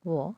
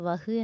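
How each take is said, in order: First: It is said as 'vo' with a long o. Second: It is said as 'vah' with a final h. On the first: The speaker calls it right. "പറയുമ്പോൾ വോ എന്ന് നമ്മൾ പറയണം" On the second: The speaker calls it wrong. "നമ്മൾ വഹ് എന്ന് പറയരുത്"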